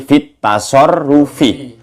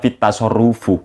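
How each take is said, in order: First: The last word ends with an 'i' vowel. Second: The last word ends with an 'u' vowel. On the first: The speaker calls it right. "maka bacaannya fit tasarrufi" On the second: The speaker calls it wrong. "Jangan dibaca fit tasarrufu"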